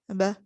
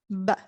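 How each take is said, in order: First: The b is articulated lightly with weak lips. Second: The b is articulated with strong lip pressure. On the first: The speaker calls it wrong. "it will sound like ba, ba, ba. But we do not want this sound" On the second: The speaker calls it right. "we will pronounce it with uh, with much strength from our lips"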